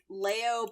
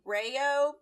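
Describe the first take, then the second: First: The name begins with an L sound. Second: The name begins with an R sound. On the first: This is how English-speaking fans say it. "English-speaking fandom thing" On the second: This is how it is said in Japanese. "but also Reo, because Japanese"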